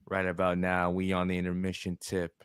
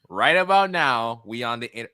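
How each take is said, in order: First: It is read in a put-on performer's voice. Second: It is read in his normal voice.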